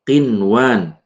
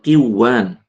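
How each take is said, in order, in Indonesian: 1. Bunyi n diucapkan dengan jelas. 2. Bunyi n melebur ke bunyi berikutnya. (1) "Kemudian qinwan" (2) "bukan qiwan"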